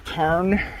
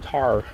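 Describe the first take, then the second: First: The word ends with an audible N sound. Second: The word ends without any N sound.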